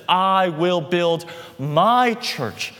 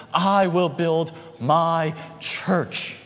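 First: "my" leaned on, slow and weighty; "I will build my church", drawn out with "my" pressed hard; stress on my. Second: "I" stressed, each word slow and heavy; "I will build my church" with "I" hit first and firm. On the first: Preacher stresses Jesus' ownership to the congregation, slow emphatic words. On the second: Preacher repeats the promise to the congregation, slow and firm. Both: Shown as a demonstration.

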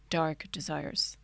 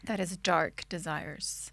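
First: Slow, low seductive whisper; dark sexy voice. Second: Low breathy seductive whisper; dark sexy voice. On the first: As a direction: drag it out slow and sultry. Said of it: "I wanna take two". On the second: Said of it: "I was trying to say it with a dark voice". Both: Pretend.

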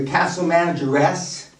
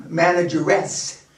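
First: Said in the usual way. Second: Manageress drawn out slowly, lower, with a rising end; mocking drawn-out title. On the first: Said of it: "Can't call him manager now". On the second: Shown as a demonstration. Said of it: "Can't call him manager now. Manageress".

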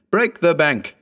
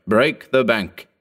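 First: High, eager shout of the command; ecstatic cry. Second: Slowed, weighty urging; slow emphatic. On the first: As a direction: urge him on in delight. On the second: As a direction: drag out each word firmly. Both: A narrator's reading. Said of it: "snapping his fingers in ecstasy".

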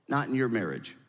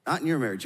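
First: "not" leaned on, falling, in "not in your marriage"; stress on not. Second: "your" leaned on, falling, in "Not in your marriage"; stress on your. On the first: Preacher to the congregation, pressing "not" in "not in your marriage". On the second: Preacher turning it on the listeners, landing on "your" in "Not in your marriage". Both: Shown as a demonstration. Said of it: "let me say it differently".

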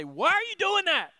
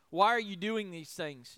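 First: Put-on loud, high scolding of a toddler; exasperated parent. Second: Said in the usual way. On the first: A parent scolding a toddler caught making a mess, loud and exasperated. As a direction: snap it at a misbehaving child, loud and high. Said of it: "had a toddler and you say". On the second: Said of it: "they ask a rhetorical question".

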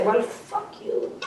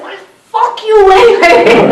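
First: Slow, breathless whispered defiance; whispered curse. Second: High, loud, slow furious scream in a big Irish brogue; screamed curse at the moon. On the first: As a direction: spit it out under the breath, slowly. Ego's last quoted defiance. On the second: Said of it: "screamed up at the moon". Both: Retold or imitated.

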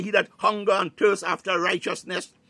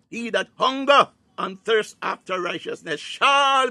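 First: Said in the usual way. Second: Higher and louder second pass, pressing on "hunger"; building emphasis. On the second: Real, not acted. Preacher repeating the verse to congregation, louder and higher. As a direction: drive the verse home with rising fervour. Quotes scripture, then repeats it stronger.

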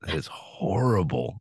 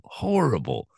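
First: Said in the usual way. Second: "Horrible" repeated higher and with weight; stressed horrible. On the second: Real, not acted. Host repeating "Horrible" to co-host, stressed higher. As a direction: hit "Horrible" hard and high.

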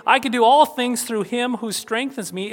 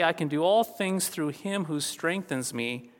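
First: Higher and louder, like a proud boast; boastful. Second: Quiet, steady and assured; calm assurance. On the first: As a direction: proclaim it as a bragging claim. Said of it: "is not an arrogant boast". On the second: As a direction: say it softly with quiet confidence. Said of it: "is a statement of assurance". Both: Shown as a demonstration.

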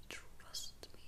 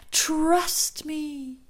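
First: Barely audible whisper; fading echo. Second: High, loud, drawn-out first call of an echo; ringing voice. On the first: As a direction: let the echo die away to a whisper. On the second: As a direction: let it ring out high and strong. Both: Retold or imitated. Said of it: "her friend's voice ringing in her ears".

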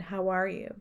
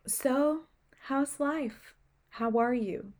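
First: Said in the usual way. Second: Gently imitating a soft-spoken doctor, pitched higher; a light take on the nurturing doctor. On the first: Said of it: "She dead ass said". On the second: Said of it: "soft spoken voice".

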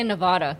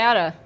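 First: NEVADA with a broad "ah"; rejected pronunciation. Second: NEVADA with a short flat A, said loud; own pronunciation. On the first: Co-host shows what she doesn't say, broad nuh-VAH-duh. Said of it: "I don't say Nevada". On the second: Co-host answers how she says it, flat-A NEVADA. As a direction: say NEVADA as nuh-VAD-uh. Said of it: "How do you say it?". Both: Shown as a demonstration.

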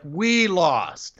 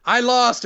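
First: "We lost" with WE raised and stressed. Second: "I lost" with a high-pitched I; stress on I. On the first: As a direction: correct him gently, leaning on "We". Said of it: "And Cole's like". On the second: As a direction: voice the loser's "I lost", lifting I high. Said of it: "And M J F looks like". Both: Retold or imitated.

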